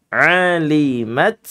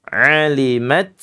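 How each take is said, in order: No difference in how they are said.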